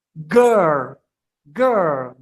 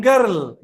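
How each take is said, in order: First: Put-on "Girl" as a long low gurr, final L barely there; drawn-out "Girl" with a swallowed L; soft-ended girl. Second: Put-on "girl" with the final L fully sounded; learner's faulty "girl", every letter sounded; full-L girl. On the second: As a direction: say "girl" as gerl, clear L at the end. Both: Shown as a demonstration. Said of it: "Bukan girl".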